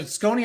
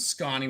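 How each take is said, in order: First: Scony with a long o; New England pronunciation. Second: Scony with an open ah for the o; local Wisconsin pronunciation. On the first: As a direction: say Scony to rhyme with bony. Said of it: "out here in New England". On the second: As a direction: say Scony as SKAH-nee. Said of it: "where he lives". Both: Shown as a demonstration.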